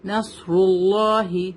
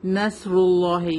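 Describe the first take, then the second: First: نصر اللہ with a full, heavy ص; slowly weight the ص in نصر اللہ; heavy sad. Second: نصر اللہ with ص thinned to a plain s; light seen mistake. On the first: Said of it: "سواد is heavy letter". (نصر اللہ میں موٹا صاد) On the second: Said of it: "ہم اسے نہیں پڑھیں گے". (نصر اللہ میں صاد سین کی طرح) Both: Shown as a demonstration.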